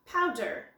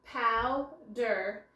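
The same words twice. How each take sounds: First: Said in the usual way. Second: Powder stretched slowly, pow and der apart; drawn out by syllable. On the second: Shown as a demonstration. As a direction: draw out powder to show the syllables. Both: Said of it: "here we see a special sound".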